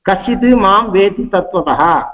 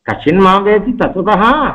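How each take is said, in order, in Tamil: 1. இது திடீரென்று முடிகிறது, ஒரு தட்டையான கூற்றாக. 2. இதில் கேள்வித் தொனி கூடுதலாக இருக்கிறது. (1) "ஒலியை வச்சுக்காமல், அதாவது அப்ரப்டா அந்த ஸ்லோகத்தை நிறுத்தி" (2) "ஸ்வரத்தை அதுக்கு கூட்டி"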